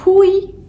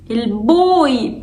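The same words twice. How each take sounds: First: بوي as "poy" with a puffed P; wrong light P. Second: Said in the usual way. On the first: Shown as a demonstration. Teacher asking if boy can become this, P mispronunciation. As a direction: turn the B of بوي into an airy P. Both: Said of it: "البوي بقى بوي".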